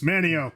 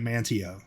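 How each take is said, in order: First: The middle t sound is left out. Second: The middle t sound is clearly pronounced. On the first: The speaker calls it right. "It's Manio" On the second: The speaker calls it wrong. "yell at you if you try to say it Mantio"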